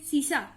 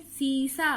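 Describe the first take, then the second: First: "शीशा" with a short, quick first i; wrong short vowel. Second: "सीसा" with a held first ee; long vowel. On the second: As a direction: draw out the ee in "सीसा". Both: Shown as a demonstration. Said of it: "ऐसे तो कहा नहीं".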